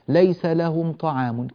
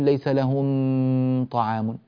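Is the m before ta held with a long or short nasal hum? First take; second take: short; long. First: The m is short with no extra nasal hum. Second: The m is held with a long nasal hum. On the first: The speaker calls it right. "كافي جدا" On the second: The speaker calls it wrong. "لا نقول ... لا يحتاج إلى زيادة في الغنة"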